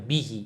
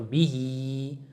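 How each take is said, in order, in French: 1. La voyelle finale est courte. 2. La voyelle finale est allongée. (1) "Au lieu de dire bihi" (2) "il faut dire bihi"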